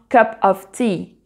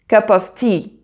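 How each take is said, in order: Both takes have the same delivery.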